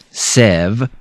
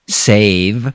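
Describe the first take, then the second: First: The vowel is not a long A sound. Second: The vowel is a long A sound. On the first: The speaker calls it wrong. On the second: The speaker calls it right.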